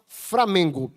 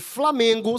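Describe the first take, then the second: First: The second sound is an R. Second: The second sound is an L. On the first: "presença do R no lugar do I, muitas vezes, do L no caso" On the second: "em vez de Flamengo"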